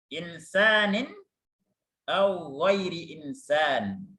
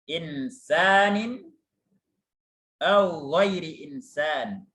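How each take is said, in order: Both takes have the same delivery.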